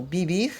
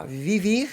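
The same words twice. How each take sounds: First: "bibir" with both V's softened to B, Spanish style; "bibir": Spanish V sounded as B. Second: "vivir" read as written with a clear V sound; "vivir" said letter by letter as written, V clear; spelled vivir. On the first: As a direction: say "bibir", the V's turned into soft B's. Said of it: "No caso aqui tá vivir". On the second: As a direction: say "vivir" with a crisp V, as it is spelt. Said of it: "ou bibir". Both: Shown as a demonstration.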